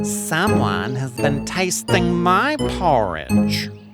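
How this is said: It is said in a middle-sized voice.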